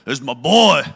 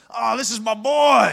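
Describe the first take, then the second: First: Much louder, lower booming boast; dad showing off his son, booming. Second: A lightly voiced proud father, slow; a hint of a booming father; booming dad voice. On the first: Retold or imitated. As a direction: boom it like he owns the room. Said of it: "Sounded like this". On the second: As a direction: boom it out proudly. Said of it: "He had a booming voice".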